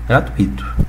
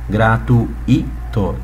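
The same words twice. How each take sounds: First: The 'ui' is one gliding syllable. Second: The 'ui' is split into two syllables. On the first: The speaker calls it right. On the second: The speaker calls it wrong.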